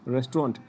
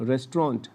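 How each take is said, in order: First: The word is said the English way. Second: The word is said the English way.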